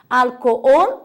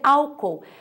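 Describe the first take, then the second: First: The stress is on the last syllable. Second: The stress is on the first syllable. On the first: This is the Spanish form. "a sílaba tônica é ol, a última" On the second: This is the Portuguese form. "em português é álcool"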